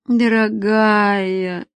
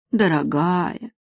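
First: Tired man gently sighs her name; weary tenderness. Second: Tender sigh. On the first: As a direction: stretch the word tiredly. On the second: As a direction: sigh the word gently. Sighing tenderly at her. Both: Acted.

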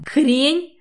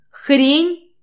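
First: Loud, higher outraged scream; explode, forgetting everything. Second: Even louder, higher furious scream. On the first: Katya screams the word back at him, outraged. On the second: Katya screams it again before running out, furious. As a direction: scream it with everything. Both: A narrator's reading. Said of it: "орёт, забыв обо всём на свете".

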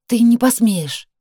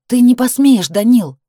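First: Slow, higher, stress landing on не. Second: Loud high cry of his name; shout. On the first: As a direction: hold him back with every word. Heroine protests. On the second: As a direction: shout it at him, no longer pleading. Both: A narrator's reading.

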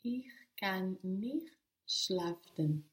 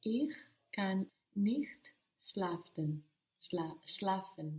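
First: "schlafen" in a slow whisper; careful whispered learner's try; slower, whispered. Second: "schlafen" hurried with a stumble on "Schla-"; hurried learner's try; rushed. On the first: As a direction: take it slow and under the breath. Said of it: "Even slower". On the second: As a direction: rush the words and trip on "schlafen". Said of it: "So don't rush it". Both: Real, not acted.

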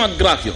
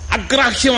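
First: Said in the usual way. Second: అగ్రాహ్యం called out high and rising, as if asking; emphatic first repeat. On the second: Shown as a demonstration.

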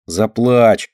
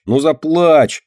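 First: Tugging, teasing 'Заплачь'; teasing urge. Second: Higher, pushier 'ну заплачь!'; insistent tease. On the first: Dinka teasing Myshka, first mild urging. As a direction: needle her to cry. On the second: Dinka teasing Myshka, higher insistent urging. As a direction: push harder, mocking. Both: A narrator's reading. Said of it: "дёргает её Динка".

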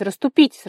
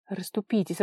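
First: Much louder and higher, rising at the end; irritated shout. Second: Said in the usual way. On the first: A narrator's reading. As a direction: yell to push through the crowd. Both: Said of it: "раздражённо кричал Лава".

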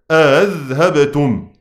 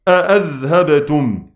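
First: أذهبتم read slowly with one hamza, no glottal stop doubled; single-hamza reading. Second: أأذهبتم read slowly with both hamzas clearly stopped; two full hamzas. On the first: Teacher reciting the one-hamza reading to students, slow and measured. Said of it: "قرأوا بالتحقيق". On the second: Teacher demonstrating tahqiq reading to students, slow and deliberate. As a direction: pronounce أأذهبتم with two distinct glottal stops. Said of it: "في الوجه الثاني قرأوا بالتحقيق". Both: Shown as a demonstration.

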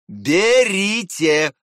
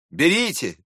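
First: Slow, louder, drawn-out repeat; unkind, drawn-out mocking insistence. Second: Said in the usual way. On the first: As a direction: press the word with a nasty smirk. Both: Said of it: "усмехнулся он опять".

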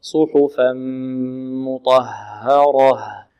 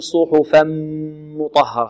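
First: Slow, low "صحفا مطهرة" with a long gentle nasal m; drawn-out recitation, easy hummed meem in "صحفا مطهرة"; relaxed merged meem. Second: "صحفا مطهرة" with lips pressed hard on the merged m; wrong, over-tight m in "صحفا مطهرة"; clamped lips on meem. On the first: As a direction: hold the m of "صحفا مطهرة" without pressing the lips. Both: Shown as a demonstration. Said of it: "لا نكز الشفتين مع الميم".

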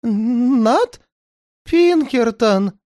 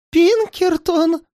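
First: Медленно, высоко, в ужасе; выдохни имя сыщика со страхом; дрожащий голос. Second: Высоко, медленно, дрожа; в ужасе переспроси имя; дрожащим голосом. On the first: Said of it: "дрожащим голосом". (испуганный повтор) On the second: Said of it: "дрожащим голосом повторил". (испуганно, дрожащим голосом) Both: A narrator's reading.

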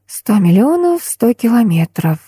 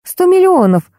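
First: Absent repeating. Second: High startled blurt. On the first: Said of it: "машинально повторила я". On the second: Tanya blurts the mantra into the phone, startled. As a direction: blurt it out without thinking. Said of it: "машинально брякнула я". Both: Acted.

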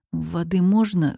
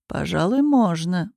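First: Dry-throated hoarse ask; hoarse rasp. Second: Said in the usual way. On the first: A narrator's reading. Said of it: "хриплю я". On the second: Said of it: "усмехается колдун".

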